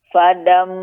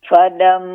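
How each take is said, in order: No difference in how they are said.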